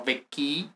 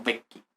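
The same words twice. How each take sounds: First: VECCHI with a long, stressed final ee; wrong double i. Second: VECCHI as VEK-kee, short unstressed final i; single short i. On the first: Teacher shows students the mistake, VECCHI with drawn-out final i. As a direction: stretch the last i of "vecchi" as if doubled. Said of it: "no vecchi, sino vecchi". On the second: Teacher gives students the correct plural, VECCHI with one short i. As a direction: say "vecchi" stressed on the first syllable, ending short. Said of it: "tenemos una sola I". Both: Shown as a demonstration.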